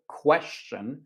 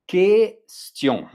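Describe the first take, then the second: First: The wrong way, question with a hard kw and English ending; anglicized question. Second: The right way, Question said kes-tee-on with a clean K; French pronunciation. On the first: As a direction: question said with an English kw sound, kwes-chun. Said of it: "Q U in French is pronounced like a K". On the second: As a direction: Question with a plain K sound, kes-tion, no w, stressed and louder. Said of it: "pronounced like a K". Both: Shown as a demonstration.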